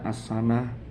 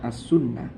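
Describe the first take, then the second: First: The vowel after the s is a. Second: The vowel after the s is u, with doubled n. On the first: The speaker calls it wrong. "Bukan dibaca as-sanah" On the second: The speaker calls it right. "tapi dibaca as-sunnah"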